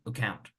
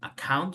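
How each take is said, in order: First: The first vowel is reduced almost to nothing. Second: The first vowel is a full, clear A. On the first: The speaker calls it right. "like the A doesn't exist" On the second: The speaker calls it wrong. "You don't say account"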